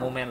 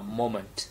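First: It is said with a Vietnamese-style pronunciation. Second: It is said with an English pronunciation. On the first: The speaker calls it wrong. "Moment là tiếng Việt" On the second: The speaker calls it right. "còn tiếng Anh nó là moment"

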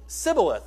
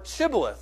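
First: The word begins with a plain s sound. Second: The word begins with a sh sound. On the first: The speaker is from the other side. "they pronounced it Sibboleth, minus the H" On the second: The speaker is from the winning side. "Why don't you pronounce to us the word Shibboleth?"

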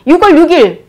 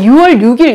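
First: It is said in a Gyeongsang dialect accent. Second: It is said in a standard Seoul accent.

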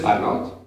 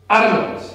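First: The voice rises at the end of the name. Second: The voice falls at the end of the name. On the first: She is going to ask for something. "Goes up, accent goes up" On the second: The speaker has to do something. "accent on the A"

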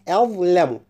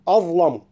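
First: Only the emphatic dh sound is heavy. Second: The glottal stop and l sound heavy. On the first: The speaker calls it right. "الحرف المفخم فقط هو الظاء" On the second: The speaker calls it wrong. "الخطأ أن نقول"

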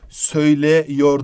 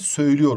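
First: The vowel before yor is an open e. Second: The vowel before yor is a narrowed ü. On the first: The speaker calls it wrong. "değil" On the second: The speaker calls it right. "Ünlü daralması var"

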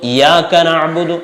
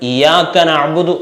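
The two takes are said the same way.

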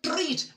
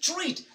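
First: The tr starts with a hard t sound. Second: The tr sounds close to a ch sound. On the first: The speaker calls it wrong. "That's wrong" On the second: The speaker calls it right. "I will say"

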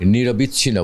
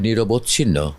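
First: The middle syllable has an i vowel. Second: The middle syllable has an o vowel. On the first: The speaker calls it wrong. "বিচ্ছিন্ন হয়ে গেলে তো আর ইয়ে হলো না" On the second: The speaker calls it right. "কথাটা হবে নিরবচ্ছিন্ন"

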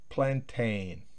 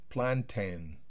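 Both takes have the same delivery.

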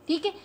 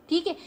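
The two takes are said the same way.

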